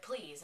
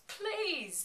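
First: Said in the usual way. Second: High, loud, drawn-out cry; stretched pleading wail, pitched way up; mock desperate plea. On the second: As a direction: imitate a desperate outburst. Retold desperate cry as hearts stop.

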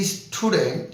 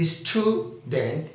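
First: Said in the usual way. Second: "student" slowed right down, split into separate syllables. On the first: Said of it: "syllable ভেঙে নিচ্ছি". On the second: Shown as a demonstration. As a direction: say "student" slowly with a break between its syllables. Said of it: "এই যে syllable ভেঙে নিচ্ছি". ("Student" ধীরে, সিলেবলে ভেঙে ভেঙে বলা)

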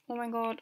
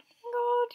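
First: Said in the usual way. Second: High, loud excited shriek; shrieking jackpot winner. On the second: Real, not acted. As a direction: squeal it like you just won. First kiss about to happen.

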